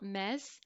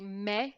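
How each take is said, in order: First: The final S is pronounced. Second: The final S is silent. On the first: The speaker calls it wrong. "not mes" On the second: The speaker calls it right. "we're going to say me"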